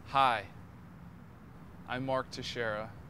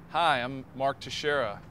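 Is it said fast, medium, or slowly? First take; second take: slowly; medium. First: It is said slowly. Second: It is said at medium speed.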